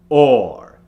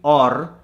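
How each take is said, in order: First: The R is made without rolling the tongue. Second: The R is made with a rolled tongue. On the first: The speaker calls it right. "you need it to be or" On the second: The speaker calls it wrong. "you don't want to roll the tongue. You don't want it to be or"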